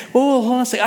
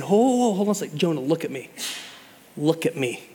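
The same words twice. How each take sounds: First: Said in the usual way. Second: Tender father. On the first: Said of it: "and God's saying". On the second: Retold or imitated. Father calming a child having a meltdown, soft and tender. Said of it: "cupping their face ... and saying".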